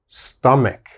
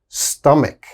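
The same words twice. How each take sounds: Both takes have the same delivery.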